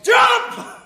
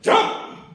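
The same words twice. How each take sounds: First: It is shouted at full volume. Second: It is said more loudly.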